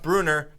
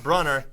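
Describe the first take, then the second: First: The first vowel is a long 'oo' sound. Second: The first vowel is a short 'uh' sound. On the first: The speaker calls it right. "which is pronounced Bruner" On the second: The speaker calls it wrong. "not Brunner, even though it's spelled Brunner"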